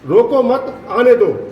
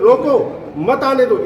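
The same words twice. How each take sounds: First: The pause comes after 'mat'. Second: The pause comes after 'roko'.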